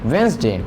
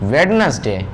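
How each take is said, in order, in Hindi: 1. d ध्वनि छोड़ दी जाती है। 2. d ध्वनि साफ़ तौर पर बोली जाती है। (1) "always say Wednesday" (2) "we do not pronounce Wednesday"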